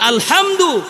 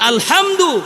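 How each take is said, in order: First: The h is a strong sound from the throat. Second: The same.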